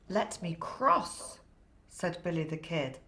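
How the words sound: It is read with lively, enthusiastic storyteller expression.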